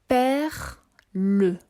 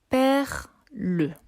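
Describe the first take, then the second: No difference in how they are said.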